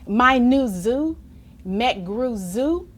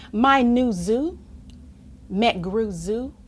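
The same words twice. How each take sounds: The two takes are said the same way.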